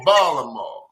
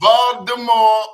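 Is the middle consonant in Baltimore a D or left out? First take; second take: Left out; D. First: The middle consonant is dropped entirely. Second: The middle consonant is a D sound. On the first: "there's going to be no consonant at all" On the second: "either going to be a D"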